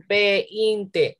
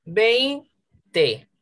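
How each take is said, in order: First: Veinte slowly broken ve-in-te; wrongly split vowels. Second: Veinte split vein-te, higher on vein; syllabified together. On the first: Teacher shows class what it cannot be, veinte as ve-in-te. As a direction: split veinte into three beats, E apart from I. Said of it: "No puede ser". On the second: Teacher gives correct split after wrong one, Veinte as vein-te. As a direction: say Veinte in two beats, E and I joined. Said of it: "silabearlas juntas". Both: Shown as a demonstration.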